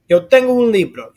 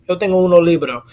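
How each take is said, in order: First: The article is one syllable, ending without the o. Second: The article is two syllables, ending with an o. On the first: The speaker calls it right. "sounds better than" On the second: The speaker calls it wrong. "That could get lost in the sauce a little bit"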